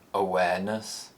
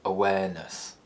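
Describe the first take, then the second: First: The pitch rises from a low starting point. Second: The pitch falls from a low starting point. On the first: "The low rise" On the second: "low falls"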